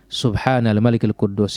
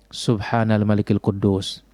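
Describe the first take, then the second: First: It is said a little louder than before. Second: It is said in a soft, quiet voice.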